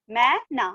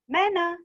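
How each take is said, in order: First: "मै... ना" with a gap between; syllable by syllable. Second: "मैना" quickly blended, pitched higher; joined word. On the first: Teacher reading matra words to class, "मै - ना" split. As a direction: break "मैना" into two syllables. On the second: Teacher completing the word for class, "मैना" joined up. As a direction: run "मैना" together as one word. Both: Shown as a demonstration. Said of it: "इस तरह से read करेंगे".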